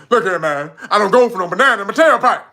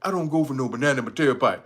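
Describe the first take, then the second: First: Loud, quick, laughing Eddie Murphy quote; Eddie Murphy style cop voice. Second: Said in the usual way. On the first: Retold or imitated. Streamer quotes Eddie Murphy, cocky and laughing. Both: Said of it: "You gotta say it like him".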